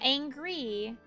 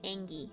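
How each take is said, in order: First: The word is said with an R sound. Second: The word is said without an R sound. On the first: It sounds too formal. The speaker calls it wrong. "Remove that R. We don't say angry around here" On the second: It sounds cute and casual. The speaker calls it right. "We say angy around here"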